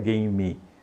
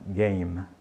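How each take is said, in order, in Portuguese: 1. Termina com uma vogal final a mais. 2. Termina com um M fechado. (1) "Não diga game" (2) "Esse E no final aí não é pronunciado... M... fechadinho"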